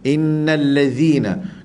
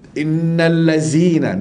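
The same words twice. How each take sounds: First: The consonant is a 'dh' sound, tongue out. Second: The consonant is a plain 'z' sound. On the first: The speaker calls it right. "sebenarnya dengan dz" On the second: The speaker calls it wrong. "dengan zai"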